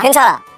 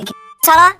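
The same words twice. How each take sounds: First: The voice falls at the end. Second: The voice rises at the end.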